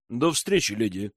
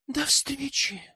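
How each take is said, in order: First: Said in the usual way. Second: High, soft, sighing goodbye; wistful sigh. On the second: A narrator's reading. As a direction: sigh it after him, high and quiet. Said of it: "вздохнула Аманда".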